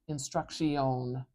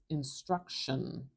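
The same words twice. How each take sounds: First: The last syllable is drawn out and full. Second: The last syllable is very short and reduced. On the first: The speaker calls it wrong. "I'm not saying instruction" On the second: The speaker calls it right. "It's really short"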